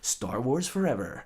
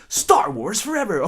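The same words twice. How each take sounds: First: It is said in a neutral, plain way. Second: It is said with strong passion.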